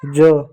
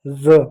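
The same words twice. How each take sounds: First: First ज said as "ja"; ज with a hard j, no buzz; plain j sound. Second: Second ज said as "za"; ज with a buzzing z; dotted z sound. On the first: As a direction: say ज like the j of jug. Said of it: "ये है ज". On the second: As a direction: say ज like the z of zoo. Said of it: "बिंदी लग जाए तो हो जाता है ज". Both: Shown as a demonstration.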